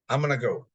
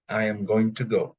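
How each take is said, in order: First: Going to is reduced to gonna. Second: Going to is said in full. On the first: This is how people usually say it in speech. "they say gonna" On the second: People don't usually say it this way in speech. "They don't really say going to"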